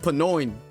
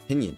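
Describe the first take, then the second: First: It is said as pa-noyn, ending in 'oin'. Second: It is said as pin-yun, two short syllables. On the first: The speaker calls it wrong. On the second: The speaker calls it right. "I need to see how to pronounce this word"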